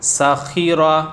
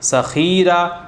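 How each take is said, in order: First: No vowel is drawn out; all are short. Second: The vowel of the second syllable is drawn out. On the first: The speaker calls it right. "ज़ेर ज़बर पेश को बिल्कुल भी नहीं खींचना है" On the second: The speaker calls it wrong. "खा को खींच दिया।"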